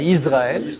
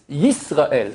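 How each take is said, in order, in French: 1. Le mot commence par un simple son de voyelle. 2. Le mot commence par un son y. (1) "pas Israël" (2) "C'est un Y"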